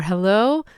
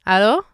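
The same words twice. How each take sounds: First: "hello" with a breathy h and rounded o; English hello. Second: "hello" with almost no h, said alo, louder; Hebrew alo. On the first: Teacher modelling English hello vs Hebrew. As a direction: push air on the h of hello. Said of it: "difference between hi or hello". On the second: Teacher modelling Hebrew hello against English. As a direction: drop the h nearly entirely on hello. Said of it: "very slight age or he". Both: Shown as a demonstration.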